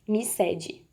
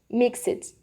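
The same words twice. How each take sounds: First: The word ends with a d sound. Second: The word ends with a soft t sound. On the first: The speaker calls it wrong. "o som do D não sai... Não fica mixed" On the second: The speaker calls it right. "é mais um Tzinho no final, um som de t"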